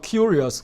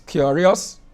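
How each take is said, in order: First: The first vowel has no oo-to-schwa glide. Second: The first vowel glides from oo into schwa. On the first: The speaker calls it wrong. "It's not curious" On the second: The speaker calls it right.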